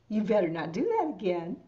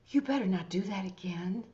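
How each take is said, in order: First: It sounds playful and teasing, not serious. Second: It sounds warm, concerned and caring. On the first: The speaker actually wants them to do it again. "I'm talking to a little kid and I actually want them to do it again" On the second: The speaker cares about a friend heading for trouble. "I'm talking to a friend that's about to get themselves into trouble and I really care about them"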